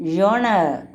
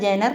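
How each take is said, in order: First: The first syllable is said like 'jon'. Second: The first syllable is said like 'jen'. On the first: The speaker calls it right. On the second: The speaker calls it wrong. "Pronounce ചെയ്യുന്നത് ജനർ എന്നല്ല"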